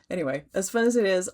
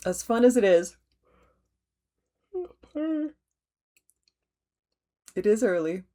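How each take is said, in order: First: Said in the usual way. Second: Words stretched out through a yawn; yawning mid-sentence. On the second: Real, not acted. Host yawning through her stitching update on video. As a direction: fight a yawn while you talk. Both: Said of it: "the nerves that make me yawn".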